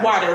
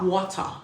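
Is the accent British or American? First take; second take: American; British. First: It is said in an American accent. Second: It is said in a British accent.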